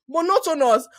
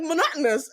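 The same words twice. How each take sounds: First: Monotonous with every syllable spelt out, mo-no-to-nous; Nigerian syllable-timed. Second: Monotonous with stress on -no-, mo-NOT-nous; American monotonous. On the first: Shown as a demonstration. Nigerian speaker shows her syllable-by-syllable Monotonous. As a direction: give Monotonous each syllable evenly, Nigerian style. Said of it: "the way I say it is articulated". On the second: Retold or imitated. Mimicking how Canadians say Monotonous, with a laugh. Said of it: "But they're like".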